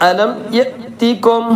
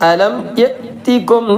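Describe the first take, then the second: No difference in how they are said.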